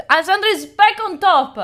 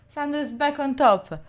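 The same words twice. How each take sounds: First: Loud, thrilled call of the lead change; excited announcement. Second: Said in the usual way. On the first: Real, not acted. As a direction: shout the news out happily. Leaderboard lead changes back.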